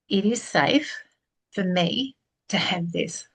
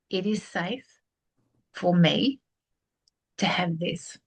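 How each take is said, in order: First: It is said slowly. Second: It is said very slowly.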